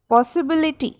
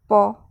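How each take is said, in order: First: Said in the usual way. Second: "पॉसिबिलिटी" as पॉ, सि, बि, लि, टी with long pauses; teacher's widely spaced five-beat "पॉसिबिलिटी"; split into five syllables. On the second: Shown as a demonstration. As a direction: sound out "पॉसिबिलिटी" one syllable at a time. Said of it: "five parts में pronounce किया".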